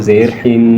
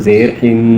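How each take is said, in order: No difference in how they are said.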